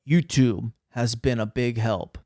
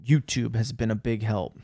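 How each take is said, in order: First: Mock-grave reading of the line; serious voice. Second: Said in the usual way. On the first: Shown as a demonstration. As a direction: deliver it as a solemn recommendation. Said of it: "in my serious voice". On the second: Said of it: "I literally wrote that".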